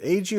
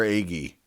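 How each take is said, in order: First: Agee with a soft g, like "AY-jee"; soft-g pronunciation. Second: Agee with a hard g, like "AY-ghee"; hard-g pronunciation. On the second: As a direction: say the g in Agee as in "geese". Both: Shown as a demonstration. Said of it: "Is it Agee or Agee?".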